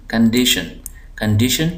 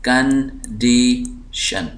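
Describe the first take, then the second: First: condition joined up, डी pressed; stress on DI. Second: condition very slow, three separate syllables. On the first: Teacher reading the word whole, stress on डी in condition. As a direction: lean on the middle डी in condition. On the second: Teacher dividing the word for students, slow split syllables. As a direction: break condition into कं, डी, शन with pauses. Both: Shown as a demonstration. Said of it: "हम जो ज़ोर दे रहे हैं".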